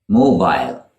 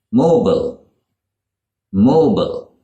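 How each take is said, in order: First: "mobile" as MOH-bile, falling; British "mobile" with full second vowel; British long I. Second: "mobile" said MOH-bul; American "mobile", rhyming with noble; shortened American ending. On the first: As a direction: make "mobile" end like aisle. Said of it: "with a long I sound at the end". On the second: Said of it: "It is shortened in American English". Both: Shown as a demonstration.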